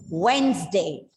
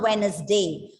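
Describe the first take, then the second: First: The D is silent, giving two syllables. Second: The D is sounded, giving three syllables. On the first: The speaker calls it right. "That is the right answer. It's Wednesday" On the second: The speaker calls it wrong. "it is not Wednesday"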